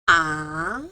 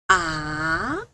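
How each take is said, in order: First: The pitch rises from mid to high. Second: The pitch rises from mid to high.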